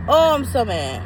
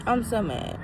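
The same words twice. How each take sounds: First: A real exasperated "Oh, I'm so mad" with weight on "Oh"; fed-up outburst. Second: "I'm so mad" said softer, sinking away; deflated mutter. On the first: Reviewer venting to viewers about bad crabs, exasperated. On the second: Reviewer repeating her complaint to herself, deflated. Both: Real, not acted.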